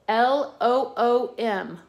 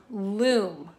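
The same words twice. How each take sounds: First: "L O O M" spelled letter by letter, slowly. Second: Said in the usual way. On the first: Shown as a demonstration. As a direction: say "L O O M" as separate letters, one by one.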